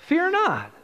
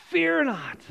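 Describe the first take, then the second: First: "Fear not" lifted high with a falling "not"; climactic repeat. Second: Rising repetition. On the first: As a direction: make the third "Fear not" the peak, higher up. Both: Shown as a demonstration.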